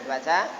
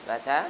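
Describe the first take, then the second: No difference in how they are said.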